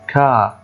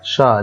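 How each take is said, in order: First: The word starts with a k sound. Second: The word starts with an sh sound. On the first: The speaker calls it wrong. "ما ينفعش أقول هنا كا خطأ" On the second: The speaker calls it right. "نُطق آآ شا وليس كا"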